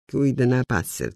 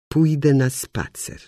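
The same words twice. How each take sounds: First: The vowels are slurred and consonants swallowed. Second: The vowels and consonants are clearly articulated. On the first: The speaker calls it wrong. "Ślizgając się po słowach, pochylając samogłoski, połykając spółgłoski" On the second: The speaker calls it right. "to znaczy"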